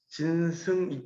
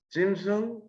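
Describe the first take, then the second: First: The first syllable ends in an n sound. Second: Said fast, the first syllable ends in m. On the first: "진과 승이 안 붙어 잘" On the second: "좀 빨리 부르면"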